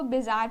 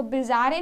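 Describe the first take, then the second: First: बाजार said plainly, no -एं ending, as the right form; correct pronunciation. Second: बाजारें with an extra nasal -एं ending, said as the wrong form; wrong pronunciation. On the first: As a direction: read it just as बाजार, clean ending. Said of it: "इसको बाजार पढ़ते हैं". (सही उच्चारण बाजार) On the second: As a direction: say बाजारें, the way it should not be read. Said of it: "इसको बाजारें नहीं पढ़ते". (गलत उच्चारण बाजारें) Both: Shown as a demonstration.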